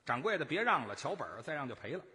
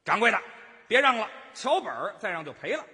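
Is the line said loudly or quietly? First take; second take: quietly; loudly. First: It is said quietly, at a low pitch. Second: It is said loudly, at a higher pitch.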